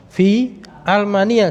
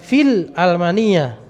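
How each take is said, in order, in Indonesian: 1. Kata pertama tetap terpisah dari almania. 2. Kata pertama menyambung ke almania dengan bunyi l. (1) "ya fi almania" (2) "jangan fil almania"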